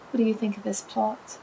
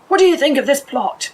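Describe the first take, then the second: First: The question is said in a quiet, calm voice. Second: The question is said in a loud, big voice. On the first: "Very calm" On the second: "in a big voice"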